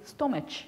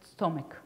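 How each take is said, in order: First: It is sounded out following its spelling. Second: It is said with its usual pronunciation. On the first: The reader applies spelling-to-sound rules to an irregular word. The speaker calls it wrong. "they would read as stomach" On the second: The word is read as it is normally spoken. The speaker calls it right. "instead of stomach"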